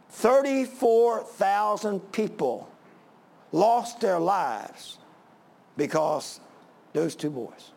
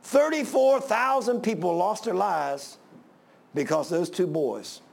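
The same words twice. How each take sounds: First: Slow, weighted phrases with long pauses; grave, drawn-out delivery broken by silences; dramatic emphasis. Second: Measured weight, falling at the end; emphatic restatement. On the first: Preacher driving home the death toll. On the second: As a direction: repeat it gravely with fewer breaks. Repeats the toll in one sweep. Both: Real, not acted.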